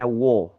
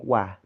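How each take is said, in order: First: The vowel sounds dark and rounded, like o. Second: The vowel sounds light and open, like a. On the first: The speaker calls it wrong. "tidak membacanya wo" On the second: The speaker calls it right. "tapi wah, tetap wah"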